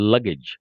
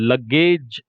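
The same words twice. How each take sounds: First: The word is said short and clipped. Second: The word is drawn out and lengthened. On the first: The speaker calls it right. "അതിന്റെ correct pronunciation ലഗേജ്" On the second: The speaker calls it wrong. "ലഗേജ് എന്ന് നീട്ടിയിട്ട് പറയരുത്"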